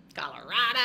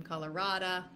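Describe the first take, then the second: First: Loud put-on accent; exaggerated accent on Colorado. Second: Said in the usual way. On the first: Real, not acted. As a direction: belt out the place name in a playful accent. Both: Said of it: "I don't know why I said that with an accent".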